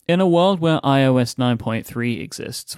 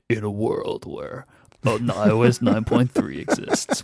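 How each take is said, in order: First: It is said in a normal speaking voice. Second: It is said in a dramatic movie-trailer voice.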